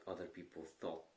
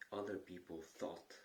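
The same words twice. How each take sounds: The two takes are said the same way.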